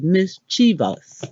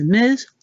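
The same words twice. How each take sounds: First: "mischievous" in three syllables, MIS-chuh-vus; "mischievous" with no extra ee before the end; correct pronunciation. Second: "mischievous" with an extra ee sound before the ending, like mis-chee-vee-us; "mischievous" stretched into four syllables; the everyday wrong version with the added vowel; common mispronunciation. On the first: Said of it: "How to actually say it is". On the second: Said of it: "What we've been saying is". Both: Shown as a demonstration.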